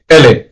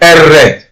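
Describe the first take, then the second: First: The r is replaced by an l sound. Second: The r is a strong rolled trill. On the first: "they would say L" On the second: "while others would say R"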